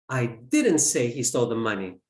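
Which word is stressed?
say. The word 'say' is stressed. It was implied, not said. "I implied it"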